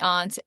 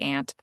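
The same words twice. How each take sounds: First: It is said with a British-style vowel. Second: It is said with a New Jersey vowel. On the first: "the U K says the aunt" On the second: "my Jersey comes out and I say aunt"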